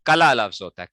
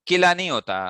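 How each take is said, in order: First: कला with a short open a, ka-la, louder; correct pronunciation. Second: किला with a short i, as the mistake; wrong pronunciation. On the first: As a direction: stress कला, ka-la not ki-la. (सही उच्चारण कला) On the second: (गलत उच्चारण किला) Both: Shown as a demonstration.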